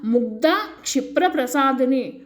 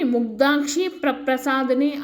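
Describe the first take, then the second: First: The break falls right after 'mugdha'. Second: The break falls right after 'mugdhakshi'.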